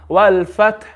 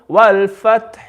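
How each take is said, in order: First: The last consonant stops with no audible vowel. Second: A very faint short vowel follows the last consonant. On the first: "If you read it with Ishmam" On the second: "and with Rom"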